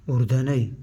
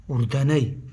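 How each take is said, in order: Both takes have the same delivery.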